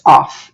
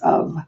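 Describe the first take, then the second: First: The word ends in an 'f' sound. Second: The word ends in a 'v' sound. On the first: The speaker calls it wrong. "We don't say this off" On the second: The speaker calls it right. "it's of"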